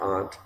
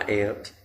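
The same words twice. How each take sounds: First: It is said the standard way, unlike 'ant'. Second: It is said the East Texas way, like 'ant'.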